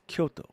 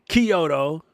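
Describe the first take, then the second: First: The start is said as one syllable, 'kyo'. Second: The start is split into two syllables, 'key-oh'. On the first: The speaker calls it right. "It's Kyo. It's a single word" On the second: The speaker calls it wrong. "it's not Kyoto"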